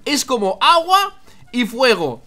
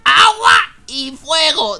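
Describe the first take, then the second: First: Slow, deliberate emphasis; scandito. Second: Slow, drawn-out loud shout; amazed shout. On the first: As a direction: present it slowly, word by word. Presents the odd sight. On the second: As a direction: belt it out slowly, higher and louder. Repeats it in amazement. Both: Real, not acted.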